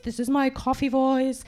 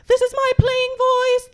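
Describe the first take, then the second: First: Very low, level monotone; low intoned demo; coffee voice. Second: Chanted on one held note; level sustained chant; sung, playing voice. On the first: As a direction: drop deep and hold the note. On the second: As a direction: intone it like a singing exercise. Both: Shown as a demonstration.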